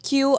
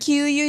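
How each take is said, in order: First: The word is said as one syllable. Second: The word is said as two syllables. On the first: The speaker calls it right. "instead of Q" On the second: The speaker calls it wrong. "said Q you"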